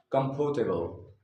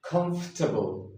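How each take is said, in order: First: Comfortable said with a full "port" middle, four syllables; wrong way. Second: Comfortable said as "cumf-tuh-bl", three syllables; comfortable with the middle squeezed out, "KUMF-tuh-bul"; correct British way. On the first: Teacher shows the common mistake with comfortable. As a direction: sounds out every letter of comfortable. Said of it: "that's the incorrect pronunciation". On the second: Teacher models the correct comfortable. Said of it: "The correct pronunciation of this word is". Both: Shown as a demonstration.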